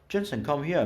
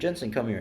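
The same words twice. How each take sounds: First: It is said in an attempted Australian accent. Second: It is said in the speaker's ordinary accent.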